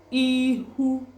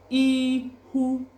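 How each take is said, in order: First: The middle consonant is an h sound. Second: The middle consonant is an h sound.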